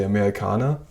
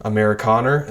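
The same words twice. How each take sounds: First: "Amerikaner" with the final er as an open "ah"; "Amerikaner" with no American r at the end; German r-less ending. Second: "Amerikaner" with a hard American r at the end; "Amerikaner" the American way, r fully pronounced; American er sound. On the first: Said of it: "but they would say Amerikaner". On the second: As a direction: say "Amerikaner" ending in an English "er". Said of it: "the whole er sound is not in German at all". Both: Shown as a demonstration.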